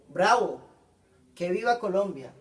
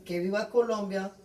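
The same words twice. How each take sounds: First: Loud cheer of Bravo, then an excited call; an emphatic exclamation demo; exclaiming. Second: Said in the usual way. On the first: Shown as a demonstration. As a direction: cheer it like a proud fan. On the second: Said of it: "Como podemos observar".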